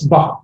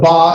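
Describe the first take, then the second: First: The vowel is a little shorter. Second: The vowel is held long. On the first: "It's a little bit shorter" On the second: "Instead of ba"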